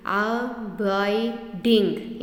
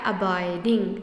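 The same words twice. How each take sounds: First: abiding in three slow beats, "a - bai - ding"; split into syllables. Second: Said in the usual way. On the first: Shown as a demonstration. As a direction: stretch abiding out, a gap after each syllable. (Abiding को तीन हिस्सों में तोड़कर, धीरे) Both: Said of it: "यहाँ पे तीन syllable".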